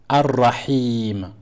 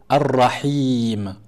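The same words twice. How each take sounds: Both takes have the same delivery.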